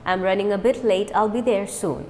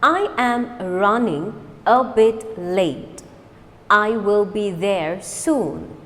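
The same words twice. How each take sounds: First: Quick natural speed; fast. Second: Slow, deliberate model sentence. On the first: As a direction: say it briskly. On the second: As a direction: lay each word out slowly. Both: Shown as a demonstration. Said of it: "Now fast".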